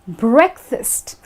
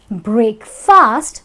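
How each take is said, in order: First: It is said smoothly as a single word. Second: It is said as two separate words.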